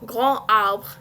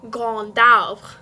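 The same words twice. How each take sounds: First: The final D is silent, with no linking. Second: The final D is pronounced, linking into arbre. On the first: The speaker calls it wrong. "it would not be" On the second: The speaker calls it right. "it would be grand arbre, because there's a silent D at the end"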